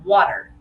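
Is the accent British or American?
American. It is said in an American accent.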